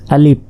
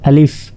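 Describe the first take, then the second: First: আলিফ ending in a Bengali p, said as alip; wrong alif. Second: আলিফ short, ending in a clean f; correct alif. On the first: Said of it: "অনেকে প এর মতো উচ্চারণ করে". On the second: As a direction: say আলিফ quick with an f at the end. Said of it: "আসলে এটা আলিফ". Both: Shown as a demonstration.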